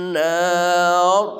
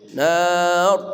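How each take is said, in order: Both takes have the same delivery.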